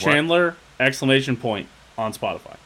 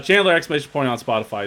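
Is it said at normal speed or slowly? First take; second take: slowly; normal. First: It is said slowly and deliberately. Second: It is said at normal conversational speed.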